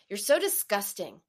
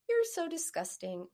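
First: It is said in a harsh, nasty tone. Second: It is said in a sweet, kind tone.

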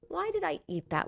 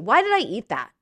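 First: It sounds gentle and genuinely inquisitive. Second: It sounds harsh and self-critical.

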